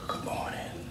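It is spoken in a whisper.

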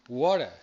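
It is said in an American English accent. "en inglés americano"

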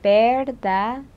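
It is said with a Spanish accent. "in Spanish, you pronounce the V like a B and the D like a TH"

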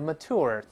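It ends with an r-colored vowel. "美音把这u 变成o，把这个r 加个卷舌音"

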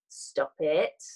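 It is said in a firm, coaxing way. The speaker is gently persuading the listener to stop. "So I cajole you firmly"

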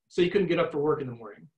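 The voice falls at the end like a statement. It reflects without judging. The speaker calls it right. "the last one is a statement and it doesn't sound judgmental"

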